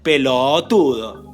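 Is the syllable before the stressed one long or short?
long. The syllable before the stress is drawn out. The speaker calls it right. "alargar lo que se llama la sílaba pretónica"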